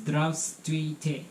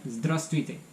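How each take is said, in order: First: "Здравствуйте" spelled out slowly, every consonant including the second v; slow teaching pronunciation; slow careful Russian. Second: "Здравствуйте" said at normal speed with the second v dropped, like zdrastvuyte; relaxed everyday pronunciation; natural Russian. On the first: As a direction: sound out "Здравствуйте" syllable by syllable. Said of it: "This is". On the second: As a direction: say "Здравствуйте" quickly, skipping the second v. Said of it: "the second V is not pronounced so much". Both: Shown as a demonstration.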